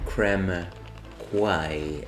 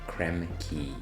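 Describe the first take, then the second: First: The second word does not sound like key. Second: The second word sounds exactly like key. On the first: The speaker calls it wrong. "as I used to pronounce it when I was a, a lad" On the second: The speaker calls it right. "that word is actually key, like lock and key"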